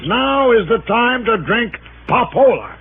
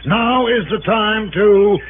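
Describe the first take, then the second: First: Slow, proud reveal of "Now is the time to drink Papola."; reading the slogan. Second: Slow, deliberate reading of "Now is the time to"; reading the slogan. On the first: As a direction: savor "drink Papola" as the punchline. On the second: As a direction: spell out "Now is the time to" like a sign. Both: Retold or imitated. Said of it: "what you're really reading is".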